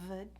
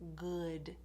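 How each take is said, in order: First: The word starts with a v sound. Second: The word starts with a g sound. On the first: "replace a W with a V sound" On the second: "put a g in there instead of a W sound"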